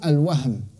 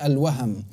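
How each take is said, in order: First: No vowel is heard between the h and m. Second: A short a vowel is heard between h and m. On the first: The speaker calls it wrong. "les gens ils disent al-wahm. C'est facile dans la prononciation, alors que c'est une erreur" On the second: The speaker calls it right. "On dit al-waham"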